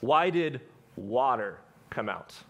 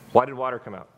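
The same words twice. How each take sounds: First: The question is said with added emphasis on 'water'. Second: The question is said plainly, without special emphasis.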